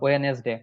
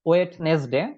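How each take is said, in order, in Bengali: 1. এটি 'we-nes' দিয়ে শুরু হয়, দুটি দল, কোনো 'd' ধ্বনি নেই। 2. এটি 'wed-nes' দিয়ে শুরু হয়, 'd' ধ্বনি আছে এবং দুটি দল। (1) "একটাও রাইট না" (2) "ভুল উচ্চারণটা করে থাকি"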